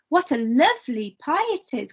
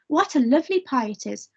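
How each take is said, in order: First: It is said strongly with extra emphasis. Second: It is said calmly with little emphasis.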